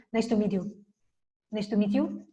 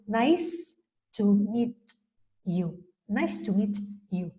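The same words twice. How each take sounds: First: "nice to meet you" run together, endings swallowed; rushed Spanish style. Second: "nice to meet you" slowly, each final consonant finished; slow, crisp endings. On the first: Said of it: "Los españoles corremos". ("nice to meet you" atropellado, sin terminar) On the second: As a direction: give every word of "nice to meet you" its time. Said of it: "Sin embargo, ellos". ("nice to meet you" lento, cerrando cada consonante) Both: Shown as a demonstration.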